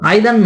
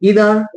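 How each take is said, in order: First: The word begins with an 'eye' sound. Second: The word begins with an 'ee' sound. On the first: The speaker calls it wrong. "আইদার নয়, আমরা সবাই কিন্তু আইদার বলি কিন্তু ভুল" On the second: The speaker calls it right.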